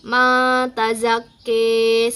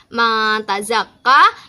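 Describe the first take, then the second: First: The final vowel is tilted toward 'i'. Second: The final vowel sounds like an open 'a'. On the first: "ada imalah juga"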